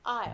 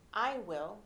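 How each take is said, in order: First: The words are contracted into one syllable. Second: Both words are said fully as separate words. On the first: "you'll say" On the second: "instead of saying"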